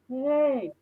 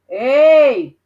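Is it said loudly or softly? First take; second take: softly; loudly. First: It is said softly. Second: It is said loudly.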